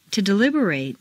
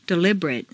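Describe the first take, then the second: First: "deliberate" ending in long "-RATE"; full A ending. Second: "Deliberate" ending in weak "-rut"; reduced ending. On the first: Teacher models verb "deliberate" with full final A. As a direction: open out the last A of "deliberate". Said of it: "it's a full A sound". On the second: Teacher models adjective "Deliberate" with reduced final vowel. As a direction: shrink the last vowel of "Deliberate". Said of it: "completely reduced". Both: Shown as a demonstration.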